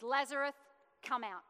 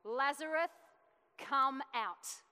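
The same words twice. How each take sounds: First: A firm called name, then a short order; a bold preacher's call; spoken command. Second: A preacher's ringing call to the dead; commanding shout. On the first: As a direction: voice of authority. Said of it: "He says". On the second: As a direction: call the name out loud and strong. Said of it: "Then Jesus shouted". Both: Acted.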